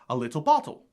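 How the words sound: An RP accent with a fully pronounced T.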